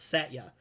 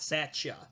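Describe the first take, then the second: First: The middle consonant is a plain 't'. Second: The middle consonant sounds like 'ch'. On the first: The speaker calls it right. "It's Satya" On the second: The speaker calls it wrong. "so it's not Satya"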